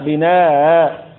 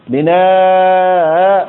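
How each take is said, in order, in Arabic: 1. تُقصَر الألف قبل الهمزة فتبقى قصيرة. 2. تُمَدّ الألف قبل الهمزة مدًّا طويلًا. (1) "والقصر فيها" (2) "مع المد في الألف"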